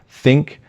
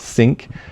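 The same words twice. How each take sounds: First: The word begins with a clear 'th' sound. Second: The word begins without a 'th' sound. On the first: The speaker calls it right. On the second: The speaker calls it wrong.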